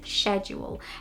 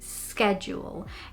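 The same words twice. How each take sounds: First: It is said with a British pronunciation. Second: It is said with an American pronunciation. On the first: "the correct British pronunciation is schedule" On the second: "which in American English would be schedule"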